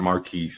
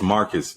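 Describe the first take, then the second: First: The name ends with a long 'keese' sound. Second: The name ends with a short 'cus' sound. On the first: The speaker calls it wrong. "not Marquise" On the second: The speaker calls it right. "it's Marcus"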